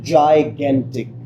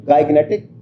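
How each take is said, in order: First: Slow "जाइगेंटिक", first g said as j; correct pronunciation. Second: "गाइगनेटिक" with a hard G at the start; "गाइगनेटिक" mispronounced with hard g; wrong pronunciation. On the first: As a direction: model "जाइगेंटिक" slowly and clearly. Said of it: "असल pronunciation है वो है". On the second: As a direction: misread it as "गाइगनेटिक", g as in go. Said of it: "लेकिन ये pronunciation गलत". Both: Shown as a demonstration.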